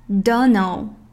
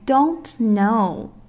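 First: The words are blurred together and shortened. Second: Both words are said clearly and fully. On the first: "缩读形式" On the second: "标准形式"

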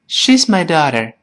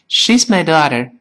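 First: It is said in an American accent, mouth moving little. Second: It is said in an American accent, mouth moving little.

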